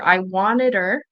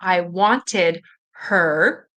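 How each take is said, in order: First: The H at the start of 'her' is dropped. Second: The H at the start of 'her' is pronounced. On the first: "you might not hear the H here. So you might hear" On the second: "if you're listening for"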